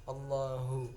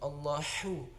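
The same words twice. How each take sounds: First: The final hu sounds full and heavy. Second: The final hu sounds thin and light. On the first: The speaker calls it right. "hu-nya hu yang besar" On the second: The speaker calls it wrong. "bukan Allahu"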